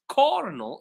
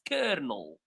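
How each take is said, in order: First: The first syllable sounds like 'core'. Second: The first syllable sounds like 'ker'. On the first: The speaker calls it wrong. "the O is not pronounced O. It's not pronounced cornel" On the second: The speaker calls it right. "It's pronounced kernel. Like word, like bird"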